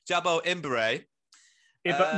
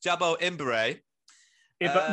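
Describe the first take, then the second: First: The surname is said with an m sound. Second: The surname is said with an m sound.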